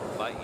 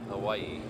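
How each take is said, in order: First: The middle consonant sounds like a v. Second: The middle consonant sounds like an English w. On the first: This is the native Hawaiian pronunciation. "in Oelo Hawaiian, it's Hawaii" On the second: This is the English-influenced pronunciation. "it's kind of been Englishized, English languageized towards Hawaii"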